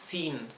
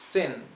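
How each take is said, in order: First: The vowel is a long ee sound. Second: The vowel is a short, lax i sound. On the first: The speaker calls it wrong. "no es thin" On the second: The speaker calls it right. "Es una I corta y más cerrada, más apagada"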